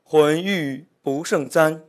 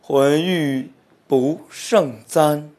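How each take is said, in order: First: The line is read fast. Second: The line is read slowly, drawn out.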